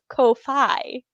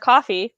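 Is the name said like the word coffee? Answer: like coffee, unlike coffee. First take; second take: unlike coffee; like coffee. First: The name sounds different from the word coffee. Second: The name sounds just like the word coffee. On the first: The speaker calls it wrong. "my brain defaults to Ko-fi" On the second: The speaker calls it right. "much like coffee"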